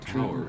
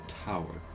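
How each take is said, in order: First: The T is said softly, not crisply. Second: The T is said crisply and clearly. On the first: "It's not a" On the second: "pronouncing the T as t- so fun"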